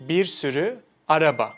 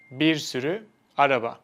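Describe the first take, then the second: No difference in how they are said.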